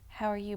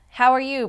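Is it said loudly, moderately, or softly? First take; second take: softly; loudly. First: It is said a little softly. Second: It is said very loudly.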